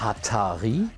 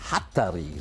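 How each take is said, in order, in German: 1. Der Name wird mit deutscher Aussprache gesagt. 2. Der Name wird mit isländischer Aussprache gesagt. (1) "wie wir das sagen würden" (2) "so sagen die Isländer das"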